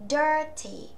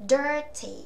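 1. Chữ t ở giữa được phát âm rõ ràng. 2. Chữ t ở giữa được phát âm rõ ràng.

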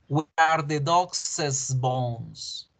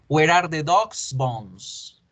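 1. La palabra 'dog's' termina en una sílaba extra. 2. La palabra 'dog's' termina en una s simple. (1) "esta apóstrofe se debe pronunciar es para que suene a plural" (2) "Número uno"

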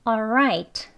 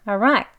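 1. 첫 음절은 L 소리까지 완전히 발음돼요. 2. 첫 음절은 숨소리뿐이고, right는 크게 들려요.

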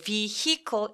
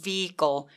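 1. h 소리는 강하게 발음해요. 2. h 소리는 가볍게 발음해요. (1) "vehicle 하지 말고" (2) "요 정도로 h는 열심히 발음하지 않으셔도 돼요"

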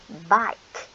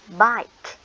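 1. Từ này kết thúc bằng âm k rõ ràng. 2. Từ này kết thúc bằng âm k rõ ràng.

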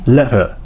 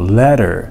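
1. 真ん中の子音は一瞬消えます。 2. 真ん中の子音はDのように聞こえます。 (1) "その音が一瞬消えるんですよ" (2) "D 発音するんですよ"

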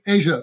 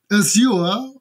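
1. Das Wort wird amerikanisch ausgesprochen. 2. Das Wort wird britisch ausgesprochen. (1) "die Amerikaner sagen Asia tatsächlich" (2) "Die Briten sagen Azure"

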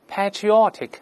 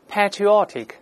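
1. 这是用英式口音说的。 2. 这是用英式口音说的。

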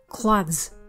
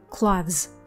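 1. 结尾的 th 和 s 是浊音。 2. 结尾的 th 和 s 是浊音。

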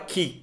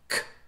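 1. O k é seguido por uma vogal i sonora. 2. O k é uma explosão surda, sem vogal. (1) "Não é ki, ki, ki, de jeito nenhum ... vai usar o i ... vai usar as cordas vocais" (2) "nós falamos k, k"

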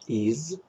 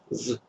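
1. У глагола полный гласный, is. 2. Глагол сводится к краткому звуку z. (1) "Его сильная форма is" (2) "его слабая форма z"

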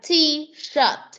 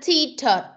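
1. Âm sh trong shirt rõ. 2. Âm sh trong shirt không rõ. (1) "mà là t-shirt. Chữ s con s ơ tờ ớt shirt" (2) "Không phải là t-shirt"

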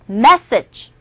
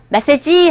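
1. 강세는 첫 번째 음절에 있어요. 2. 음절을 고르게 발음해요, 한국어식으로요. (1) "첫 번째 강세 있죠? A에" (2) "메시지 하지 마시고"

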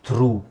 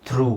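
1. ಈ ಪದ ದೀರ್ಘ oo ಸ್ವರದಲ್ಲಿ ಮುಗಿಯುತ್ತದೆ. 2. ಈ ಪದ ದೀರ್ಘ oo ಸ್ವರದಲ್ಲಿ ಮುಗಿಯುತ್ತದೆ.

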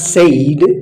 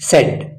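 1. ಸ್ವರ ದೀರ್ಘ 'ay' ಧ್ವನಿ. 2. ಸ್ವರ ಹ್ರಸ್ವ 'eh' ಧ್ವನಿ. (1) "It is not said" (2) "it is said"

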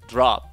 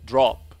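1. 母音は開いた、円唇でない「ah」の音です。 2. 母音は短く、円唇の「o」の音です。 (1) "アメリカ英語では" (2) "イギリス英語での発音"

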